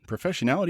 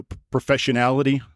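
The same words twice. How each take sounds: First: Professionality said higher and softer with a questioning rise; doubtful word. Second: Said in the usual way. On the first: Shown as a demonstration. Checking with the listener whether Professionality is a word, rising unsure tone. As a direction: try Professionality as a question, voice lifting at the end. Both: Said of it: "is that a word?".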